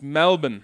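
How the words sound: It is said with an Australian accent. The speaker calls it right. "there's a little bit of Australian accent in there"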